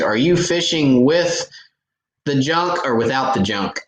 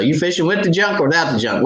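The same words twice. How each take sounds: First: Teasing your partner with a loaded question; mock fishing partner question. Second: Higher and fast, tossed-off; quick partner question. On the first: Tournament partner asking about the junk, in a teasing half-shout. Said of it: "generally the first question we ask". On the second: Retold or imitated. Quoting what he and his partner ask each other, quick and higher. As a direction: rattle it off like you always ask it. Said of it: "that's what we ask each other".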